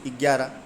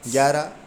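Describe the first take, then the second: First: ग्यारह mispronounced with an extra "i" in front, "igyarah"; added initial i. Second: Said in the usual way. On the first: Shown as a demonstration. Teacher showing students a common error, ग्यारह wrongly begun with an i. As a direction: put a short ee sound before ग्यारह. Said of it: "ई लगा देते हैं आगे". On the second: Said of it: "बोलते हैं कुछ ग्यारह".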